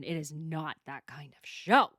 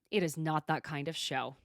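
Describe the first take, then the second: First: It is not that kind of show, slowed and firm; slow, firm repeat to shut it down; firm, slow insistence. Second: Said in the usual way. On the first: Real, not acted. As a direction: lay it down slowly, every word firm.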